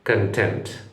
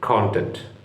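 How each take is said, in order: First: The stress is on the second syllable. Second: The stress is on the first syllable. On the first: It means satisfied or satisfaction. "ഇതാണ് സംതൃപ്തി എന്ന English വാക്കിൻ്റെ ഉച്ചാരണം" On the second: It means the material or subject matter. "ഇംഗ്ലീഷിൽ അവിടെ കുറച്ച് stress കൊടുത്ത് പറയുക"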